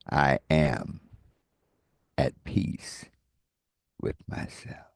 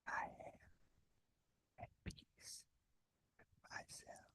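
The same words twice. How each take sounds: First: It is spoken in a normal voice. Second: It is whispered.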